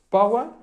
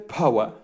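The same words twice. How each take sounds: First: The first p has no puff of air. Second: The first p has a puff of air. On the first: "Esa P no es aspirada" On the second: "la cambio por una P aspirada"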